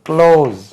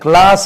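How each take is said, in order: First: The vowel sounds like 'oh', as in close. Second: The vowel sounds like 'ah', as in class. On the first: The speaker calls it right. "இது க்ளோஸ்" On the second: The speaker calls it wrong. "அது கிளாஸ் என்று உச்சரிக்க கூடாது"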